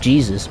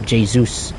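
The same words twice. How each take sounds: First: The name is given an anglicized pronunciation. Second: The name is given its native pronunciation. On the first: This is how the speaker first assumed the name sounded. The speaker calls it wrong. "I thought he was called Jesus" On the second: This is how the name is actually pronounced. The speaker calls it right. "as his actual actual name is uh, pronounced"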